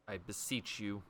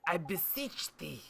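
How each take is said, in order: First: Said in the usual way. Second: Higher, slow, theatrical olde-worlde plea; mock archaic plea. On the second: Shown as a demonstration. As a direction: ham it up like a knight begging.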